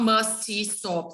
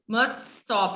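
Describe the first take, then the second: First: An extra vowel sound separates the two words. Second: The two words run together as one sound. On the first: The speaker calls it wrong. "It's not must E stop like in Portuguese" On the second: The speaker calls it right. "if you speak it fast, listen to me first. ... It becomes one sound"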